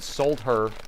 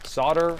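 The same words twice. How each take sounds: First: The L sound is clearly pronounced. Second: The L sound is left out. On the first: "solder is a different way of pronouncing it" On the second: "Solder is a silent L"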